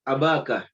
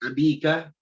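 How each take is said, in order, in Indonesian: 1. Vokal setelah b adalah a. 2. Vokal setelah b adalah i. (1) "Roa itu abaka" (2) "Jangan dibaca ... nggak boleh"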